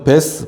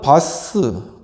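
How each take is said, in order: First: The name is said with an 'eh' vowel. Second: The name is said with an 'ah' vowel. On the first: "발음이 베스라고 하는 게 맞겠죠?" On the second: "바스인데"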